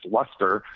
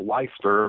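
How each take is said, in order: First: Leicester said as LESS-ter; correct pronunciation. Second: Leicester said as LIE-ster; mistaken pronunciation. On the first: Guest corrects the town's name, Leicester as LESS-ter. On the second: Guest admits mispronouncing the town's name, Leicester as LIE-ster. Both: Shown as a demonstration. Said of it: "I pronounced it Leicester".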